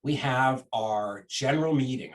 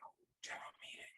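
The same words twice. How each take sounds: First: Said in the usual way. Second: Breathy mocking whisper, quick; sarcastic whisper. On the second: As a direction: whisper it like a private joke. Mocking the meeting announcement to himself.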